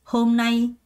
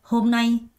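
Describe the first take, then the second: No difference in how they are said.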